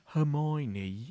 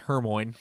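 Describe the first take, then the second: First: The name is said in the standard pronunciation. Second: The name is said in a made-up pronunciation. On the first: This is how it was heard on the audiobook. The speaker calls it right. "we were listening to it ... and it was like Hermione" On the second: This is how it was guessed from reading. The speaker calls it wrong. "we thought that Hermione was pronounced Hermione"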